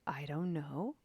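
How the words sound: It is said inquiringly, rising like a question. "Maybe there's a little bit of inquiry, question mark on the end"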